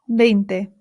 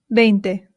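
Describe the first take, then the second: No difference in how they are said.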